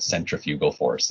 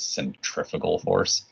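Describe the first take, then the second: First: "centrifugal" said SEN-tri-FYOO-gul; proper pronunciation. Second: "centrifugal" said cen-TRIF-uh-gul; slang pronunciation. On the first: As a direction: say "centrifugal" carefully, with a full "fyoo" in the third syllable. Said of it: "properly pronounced". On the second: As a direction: say "centrifugal" with the stress on TRIF and a short, reduced "u". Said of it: "pronounce it sort of slang as". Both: Shown as a demonstration.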